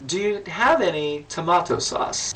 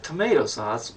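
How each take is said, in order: First: Put-on slow, lightly done Russian accent. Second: Said in the usual way. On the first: Host retelling the Russian guest's question, in a light Russian accent. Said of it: "Only in a Russian accent". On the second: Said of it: "And I went".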